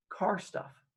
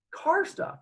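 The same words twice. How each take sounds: First: Soft, slightly high, hesitant reply; evasive answer. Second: Very high, rising questioning echo; sceptical echo. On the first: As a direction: offer it quietly after a long pause. His evasive answer to police. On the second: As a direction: repeat it as a disbelieving high question. Officers echo his answer in disbelief. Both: Retold or imitated.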